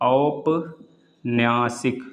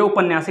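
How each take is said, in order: First: The word begins with an 'au' vowel. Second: The word begins with a short 'u' vowel. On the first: The speaker calls it right. "औपन्यासिक होगा" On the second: The speaker calls it wrong. "तो ये उपन्यासिक नहीं होगा"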